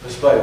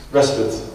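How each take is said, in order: First: Respite said as riss-PITE; local pronunciation. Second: Respite said as RESS-puts, low; alternative pronunciation. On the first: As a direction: say respite with a long "eye" in the second syllable. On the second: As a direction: say respite with stressed RESS and short second syllable. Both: Shown as a demonstration. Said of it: "How do you say it here?".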